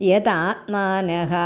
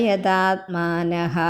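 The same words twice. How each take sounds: No difference in how they are said.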